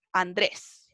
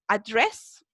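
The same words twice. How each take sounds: First: Said in the usual way. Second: "Address" with an American r, a-DRESS; American-English demo of "Address", lower pitch; gringo accent. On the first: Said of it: "Nuestro Andrés". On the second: Shown as a demonstration. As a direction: give "Address" an Americanized Andrés sound, rising at the end. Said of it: "Ahí agringado".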